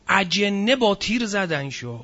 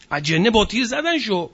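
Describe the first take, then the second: First: Slow, hushed, mocking delivery of the jinn claim; slow mock line. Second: In "اجنه با تیر زدن شو", punch "زدن" and fall away after it; mocking emphasis on the shooting; stress on zadan. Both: Shown as a demonstration.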